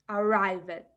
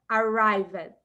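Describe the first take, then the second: No difference in how they are said.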